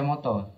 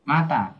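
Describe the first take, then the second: First: Both vowels are pronounced as a rounded 'o'. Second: Both vowels are pronounced as an open 'a'. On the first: The speaker calls it right. "Harus dibaca moto" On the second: The speaker calls it wrong. "Tidak boleh dibaca mata"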